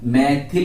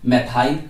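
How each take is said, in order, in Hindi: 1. दूसरे अक्षर में छोटी 'i' की आवाज़ है। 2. दूसरे अक्षर में लंबी 'ai' की आवाज़ है। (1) "मैथिल हिंदी में बोल लेते हैं हम" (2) "ज्यादातर लोग इसे क्या पढ़ते हैं? मैथाइल"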